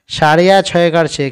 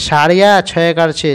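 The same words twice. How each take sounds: The two takes are said the same way.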